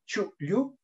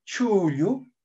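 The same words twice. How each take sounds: First: "chuyu" cut by a catch after chu; glottal catch. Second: "Chuyu" with a long, drawn-out u; lengthened vowel. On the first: Teacher showing Yuncahuanca Quechua, glottal catch. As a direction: stop the breath briefly between chu and yu in "chuyu". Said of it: "un saltillo". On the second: Teacher showing Huayllahuanca Quechua, lengthened vowel. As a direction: stretch the first vowel of "Chuyu". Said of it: "produce un alargamiento en algunas zonas". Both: Shown as a demonstration.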